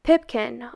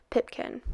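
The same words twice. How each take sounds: First: Said in the usual way. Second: Soft breathless whisper of Pipkin; whispered name. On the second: A narrator's reading. Name whispered after the chant.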